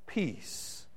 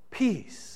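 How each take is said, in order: First: Breathy whispered word, barely voiced; hushed whisper of peace. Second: Said in the usual way. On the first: Pastor repeats the key word.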